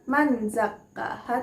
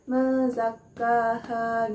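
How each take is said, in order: First: The n is pronounced clearly before the z. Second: The n is muffled into a nasal blur. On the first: The speaker calls it wrong. "bukan manzakkaha" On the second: The speaker calls it right. "tapi mezakkaha gitu. Ada suara samar-samarnya"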